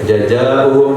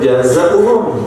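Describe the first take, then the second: First: The middle consonant is a j sound. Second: The middle consonant is a z sound. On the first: The speaker calls it wrong. "walaupun bacanya jaja" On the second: The speaker calls it right. "tapi naik jaza"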